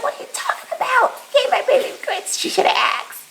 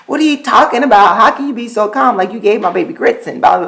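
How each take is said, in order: First: Much higher, fast, squeaky disbelief; a high, squeaky mock-outraged mom at her husband; squeaky mock outrage. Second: Fast, slightly raised, incredulous; quick mock outrage at the sitter; incredulous retort. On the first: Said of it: "I'm like". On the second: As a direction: rattle off the disbelief fast. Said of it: "I was just kinda like".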